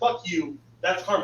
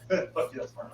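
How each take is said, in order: First: It is said in an angry tone. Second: It is said in a calm tone.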